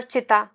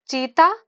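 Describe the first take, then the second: First: चिता with a short i in the first syllable; short unstressed vowel. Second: चीता with a long, stressed ee; stressed long vowel. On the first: Teacher giving the funeral fire word, चिता with short i. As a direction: keep the i in चिता brief. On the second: Teacher giving the animal word, चीता with long ee. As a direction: stretch the ee in चीता. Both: Shown as a demonstration. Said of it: "बस जोर पड़ने से".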